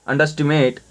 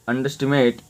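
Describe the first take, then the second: No difference in how they are said.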